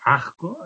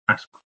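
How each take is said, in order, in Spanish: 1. La s se aspira, como una h suave. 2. La s se pronuncia como un silbido completo. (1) "la aspiración de la S en final de palabra" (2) "en vez de"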